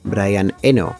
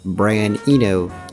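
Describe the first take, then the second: First: The name is said with a Spanish-style pronunciation. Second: The name is said with an American pronunciation. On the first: This is how people here say it. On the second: This is how the name is said abroad.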